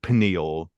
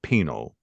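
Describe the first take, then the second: First: The word is said with three syllables. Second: The word is said with two syllables. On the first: "not like pineal" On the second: "he pr pronounces it penal"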